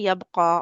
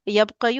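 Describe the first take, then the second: First: The word ends with a plain 'a' sound. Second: The word ends with a 'yu' sound. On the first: The speaker calls it right. "यबका के नीचे टिक लगा दें" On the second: The speaker calls it wrong. "ये ऐसे नहीं बोला जाता"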